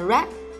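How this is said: The pitch rises on the word. The speaker calls it wrong. "không đọc đi lên là red"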